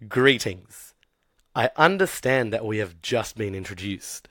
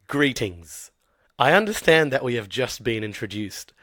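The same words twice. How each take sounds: First: It is said slowly and carefully. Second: It is said at a normal pace.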